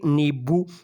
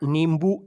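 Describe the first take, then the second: First: A nasal vowel comes before the b. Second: A full m sound comes before the b. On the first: The speaker calls it right. "इसका शुद्ध उच्चारण होना चाहिए नींबू" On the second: The speaker calls it wrong. "ज़्यादातर हम इसका उच्चारण नींबू ऐसा कर जाते हैं"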